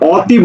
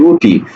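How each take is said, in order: First: The first vowel is an open 'aw' sound. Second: The first vowel is a closed 'o' sound. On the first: The speaker calls it wrong. "অতি বলি না" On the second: The speaker calls it right. "ও তরে সেখানে অতি"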